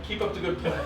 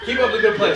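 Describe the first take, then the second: First: Stifling a laugh through it; fake-cheerful pep talk while giggling; laughing mock encouragement. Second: Louder, laughing as he says it; louder laughing pep talk. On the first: Teammate in the huddle, laughing encouragement. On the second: Retold or imitated. Player cheering on his center, loud laughing encouragement. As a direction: pump him up, cracking up. Wiping hand on teammate, laughing.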